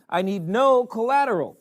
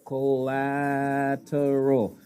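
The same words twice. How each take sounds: First: Said in the usual way. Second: "Collateral" stretched very slowly, every syllable weighted; drawn-out emphasis. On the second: Shown as a demonstration. Banker repeating the word for effect, slow and stressed. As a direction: lean on "Collateral" and let it hang.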